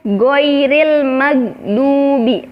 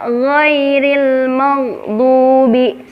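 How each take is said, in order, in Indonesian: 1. Gh diucapkan sebagai g keras. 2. Gh adalah bunyi lembut yang serak di tenggorokan. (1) "karena kita mengucapkannya dalam posisi huruf G"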